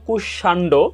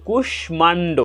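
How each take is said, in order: First: It is said following Bengali pronunciation rules. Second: It is said following Sanskrit pronunciation rules. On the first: "বাংলা রীতিতে উচ্চারণ হওয়ার কথা ছিল" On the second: "আমরা উচ্চারণ করেছি"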